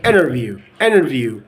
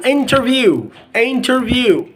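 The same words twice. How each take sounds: First: "interview" said as "innerview"; dropped T. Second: Said in the usual way. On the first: Shown as a demonstration. Teacher giving another example, "interview" without its T. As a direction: drop the T in "interview". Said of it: "you can delete the T sound". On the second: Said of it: "Another example".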